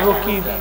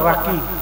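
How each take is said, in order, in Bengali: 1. প্রথম স্বরধ্বনিটি 'o' ধ্বনি। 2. প্রথম স্বরধ্বনিটি 'a' ধ্বনি। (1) "আঞ্চলিক ভাষাকে রকিব" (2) "বিশুদ্ধ হবে রাকিব"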